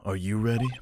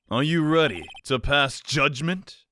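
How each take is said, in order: First: Said in the usual way. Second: "ready" drawn out slow with a long rise; slow dramatic question. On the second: Shown as a demonstration. Judge asked with mock drama if she is ready, "ready" slowly drawn out. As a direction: stretch "ready" like a game-show host.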